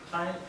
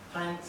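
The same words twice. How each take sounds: The two takes are said the same way.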